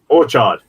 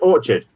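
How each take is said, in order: First: The second syllable is fully and strongly pronounced. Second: The stress falls on the first syllable only. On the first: The speaker calls it wrong. "You could say orchard. No, you can't" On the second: The speaker calls it right. "the big things on the or"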